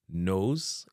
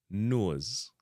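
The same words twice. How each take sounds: First: "Nose" with an English "oh" vowel; English pronunciation. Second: "nose" said as "nuoz"; Jamaican pronunciation. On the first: Teacher giving the English word first, English long O in "Nose". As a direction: say Nose as "nohz". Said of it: "Nose in a English". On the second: Teacher giving the Jamaican version, "uo" in "nose". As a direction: give nose the Jamaican "uo" glide. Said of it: "be nose in a Jamaican". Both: Shown as a demonstration.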